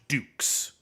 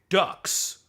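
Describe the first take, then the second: First: The name sounds like the word dukes. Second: The name sounds like the word ducks. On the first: It is read as a French name. "It's pronounced Dukes. Like, like it's a French name" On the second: It is read as an English pun on duck. "everyone pronounced it Dux because it's a duck"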